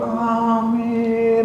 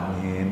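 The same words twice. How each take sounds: First: It is said in a sweet, melodious voice. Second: It is said plainly and quietly.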